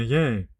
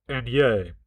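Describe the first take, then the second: First: A pinched-nose yay. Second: Yay pinched higher up the nose. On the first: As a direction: say yay holding your nose. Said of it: "that sounds too false". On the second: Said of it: "let me pinch it higher". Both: Shown as a demonstration.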